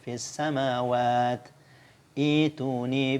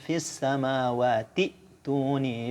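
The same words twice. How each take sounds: First: There is a stop before the last word. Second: The words run together without a stop. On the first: "kita berhenti di fis samawat, kita waqaf, kemudian kita ibtida di sini dibaca ituni" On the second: "kalau kita sambung normal saja bacanya"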